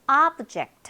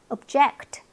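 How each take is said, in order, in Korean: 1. 강세는 첫 번째 음절에 있어요. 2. 강세는 두 번째 음절에 있어요.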